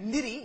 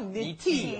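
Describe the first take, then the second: First: The T is said the American way. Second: The T is said the non-American way. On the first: The speaker calls it wrong. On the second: The speaker calls it right.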